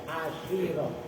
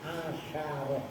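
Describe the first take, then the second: First: The sh sound is followed by an i vowel. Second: The sh sound is followed by an a vowel. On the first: "boleh dibaca kas kasroh" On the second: "kalau versi Ibnu Aqil asyaroh"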